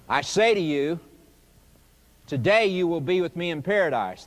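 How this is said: The pause comes after "you", before "today".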